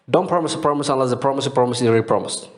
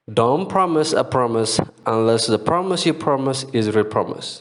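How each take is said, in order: First: It is said at normal speed. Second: It is said slowly.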